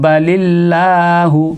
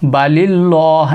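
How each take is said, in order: First: The L in Allah is thin and light. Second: The L in Allah is heavy and full. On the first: The speaker calls it right. "इसको बारीक करके पढ़ेंगे" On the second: The speaker calls it wrong. "बलिल्लाह एक है पूर हो जाएगा"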